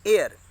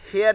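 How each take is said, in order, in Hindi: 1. शब्द heir की शुरुआत स्वर ध्वनि से होती है। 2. शब्द heir की शुरुआत h ध्वनि से होती है। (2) "इसको हेयर नहीं"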